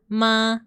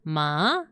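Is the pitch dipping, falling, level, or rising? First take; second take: level; dipping. First: The pitch stays level and flat. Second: The pitch dips down then rises. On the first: "this one is like just a horizontal line" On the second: "it's like a U shape"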